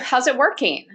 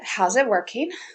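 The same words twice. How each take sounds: First: The question sounds lively and enthusiastic. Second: The question sounds flat and unenthusiastic. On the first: The listener is thought to be taking the real drug. "I may be super excited toward them" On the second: The listener is thought to be taking the placebo. "I know they're using the placebo"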